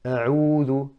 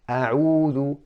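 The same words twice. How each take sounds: First: The first vowel is clipped and barely opened. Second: The first vowel is fully open. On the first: The speaker calls it wrong. "not opening the mouth enough ... like a sukun" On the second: The speaker calls it right. "You need to open the mouth"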